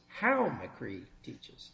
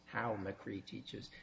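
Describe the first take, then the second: First: It is said in a raised, louder voice. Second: It is said in a lowered, quieter voice.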